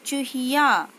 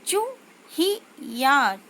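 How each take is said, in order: First: Said in the usual way. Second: चूहिया drawn out slowly, each syllable separated, falling at the end; slow syllable-by-syllable reading. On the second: Shown as a demonstration. Teacher slowly sounds out चूहिया for young pupils. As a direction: spell out चूहिया slowly for the class. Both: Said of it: "छोटे ऊ की मात्रा का उच्चारण कैसे करते हैं".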